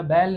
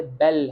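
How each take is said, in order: First: "बैल" with the Hindi ai vowel; Hindi pronunciation. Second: "बेल" with a short French e as in bell; low, firm "बेल", short open e; French pronunciation. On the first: Teacher giving the wrong Hindi version as contrast, demonstrative. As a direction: say "बैल" like the Hindi word for bull. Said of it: "ये हिंदी वाला बैल नहीं है". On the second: Teacher correcting the Hindi word to French, demonstrative. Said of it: "ये बेल है". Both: Shown as a demonstration.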